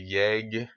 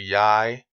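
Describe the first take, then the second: First: The word ends with a hard g sound. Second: The word ends with an ee-like vowel glide. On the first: The speaker calls it wrong. "in American you want to say yeg" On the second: The speaker calls it right. "but it's actually yai"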